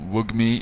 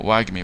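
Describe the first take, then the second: First: The first vowel sounds like the one in 'bug'. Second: The first vowel sounds like the one in 'bag'. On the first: The speaker calls it wrong. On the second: The speaker calls it right.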